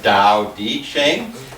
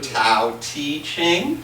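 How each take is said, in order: First: The first sounds are said as a clear D. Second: The first sounds are said as a clear T. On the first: "pronounce that T like a D" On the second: "pronounce it like a T"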